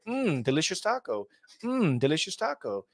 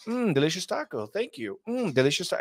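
First: Repeating the catchphrase in a robotic streamer voice; a light NPC parody; mock NPC streamer. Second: Quicker, clipped repetition of the catchphrase; rushed NPC repeat. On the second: Retold or imitated. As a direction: hurry through it like an NPC on a loop. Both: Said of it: "It's like".

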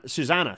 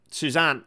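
First: "Susanna" said fully as soo-ZAN-uh, three syllables; corrected name. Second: "Suzanne" said as soo-ZAN, two syllables; the name slips out as "Suzanne"; wrong name first. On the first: Host corrects the guest's name to "Susanna". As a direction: fix it to "Susanna" with the final -a. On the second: Host names a guest, first as "Suzanne". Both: Real, not acted. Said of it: "sorry, Susanna Rocket".

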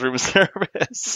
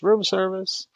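First: Drawn-out, high mock yell with laughter. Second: Mock shout. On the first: Player insisting Otto really does it, laughing mock yell. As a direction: stretch it out high, laughing through a pretend yell. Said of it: "Otto actually yells". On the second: Player voicing Otto instead of being stealthy, mock shout. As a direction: call it out high in a pretend shout. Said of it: "Otto shouts".

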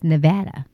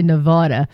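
First: "Nevada" said with a flat a as in cat, nev-AD-a; the way Nevadans say "Nevada"; local pronunciation. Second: "Nevada" said with a broad ah, nev-AH-da; the way Texans say "Nevada"; Texas pronunciation. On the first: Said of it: "I've heard them say it's Nevada". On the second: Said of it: "Most people in Texas say Nevada". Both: Shown as a demonstration.

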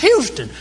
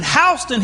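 First: Houston said as HYOO-stun; Houston opening like the word hue; Texas pronunciation. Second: Houston said as HOW-stun; Houston opening like the word house; Atlanta pronunciation. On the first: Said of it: "if you go to Texas". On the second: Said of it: "We pronounce it Houston here in Atlanta". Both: Shown as a demonstration.

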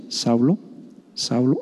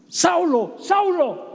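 First: Much lower and softer, a deep hushed call; another guess at the voice. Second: Much higher and softer, a thin calling voice from above; imagined heavenly voice. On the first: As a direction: drop low and quiet, like a voice rumbling from the sky. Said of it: "A lo mejor fue así". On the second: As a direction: call the name high and soft, drawn out. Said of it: "tremebunda, o sea, imagínate". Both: Pretend.

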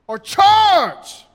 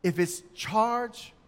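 First: Loud charge call. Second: Said in the usual way. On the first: Shown as a demonstration. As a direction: charge shouted much higher and louder. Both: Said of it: "how do we know".

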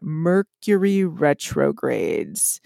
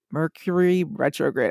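First: "Mercury retrogrades" drawn out slowly, syllable by syllable; slow, lower, over-careful "Mercury retrogrades"; careful retry. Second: MERCURY RETROGRADE muddled slightly, as if tongue-tied; tongue-tied attempt at "Mercury retrograde", syllables run together; stumbling pronunciation. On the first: Shown as a demonstration. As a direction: pronounce "Mercury retrogrades" with slow, deliberate care. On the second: Real, not acted. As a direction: trip lightly over "Mercury retrograde". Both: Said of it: "I can't even say that".

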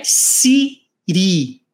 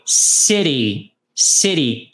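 First: "city" said with a plain T, the way learners say it; wrong pronunciation. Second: "City" with the T flapped like a quick R, sounding like "ciri"; American city. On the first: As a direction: say "city" with a hard T, as the mistake to avoid. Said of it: "Não é city". ("city" com T duro, a forma errada) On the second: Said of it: "É como se fosse um E". ("City" com T de som de R, tipo "ciri") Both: Shown as a demonstration.

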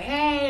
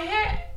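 First: Said in the usual way. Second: Hey pitched much higher, bright greeting. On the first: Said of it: "I was like". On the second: Retold or imitated. Friend retells greeting a stranger, second Hey goes up high. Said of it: "and I'm like".

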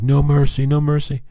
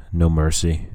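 First: High, loud mock battle cry; imitated yelling. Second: Said in the usual way. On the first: Player yelling at laser tag rivals, high mock yell. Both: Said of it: "I kept yelling".

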